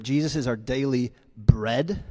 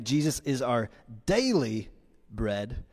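First: "bread" set apart and leaned on; stress on BREAD. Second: "daily" drawn out and lifted, "bread" dropped softly; stress on DAILY. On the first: Preacher listing his points, stressing "bread". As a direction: land the weight on the final word "bread". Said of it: "emphasis on bread". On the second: Preacher listing his points, stressing "daily". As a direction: punch "daily", let "bread" fall away. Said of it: "emphasis on daily". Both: Shown as a demonstration.

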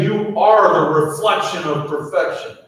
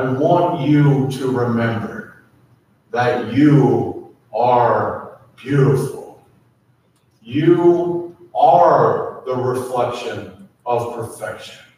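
First: Higher, rousing declaration; lifted, bright affirmation. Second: Slow and gentle, last word breathed; slow, intimate blessing, fading to a breath; slow tender affirmation. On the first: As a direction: call it out to lift the room. Pastor lifts the congregation's affirmation. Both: Acted.

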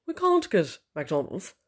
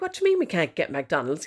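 First: Put-on slow, drawn-out posh accent with long "can't"; mock posh husband. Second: Said in the usual way. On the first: Husband rings to say no to McDonald's, mock posh voice. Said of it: "I just think he's awfully posh". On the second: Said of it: "my husband doesn't actually speak like this".

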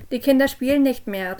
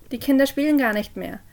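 First: Louder call to someone below. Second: Uneasy, pleading quaver; trembling voice. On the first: Parent calling down the cellar to Jess, raised voice. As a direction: raise your voice down the stairs. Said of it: "rief ich herunter". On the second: Parent pleading with Jess in the cellar, trembling. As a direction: plead nervously into the dark. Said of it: "mit zitternder Stimme". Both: A narrator's reading.

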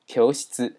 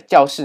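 First: 教室 read the Japanese way as kyoushitsu. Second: Said in the usual way. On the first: Shown as a demonstration. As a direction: say 教室 as kyō-shitsu, the k at the back of the mouth. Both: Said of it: "在日文当中念作".

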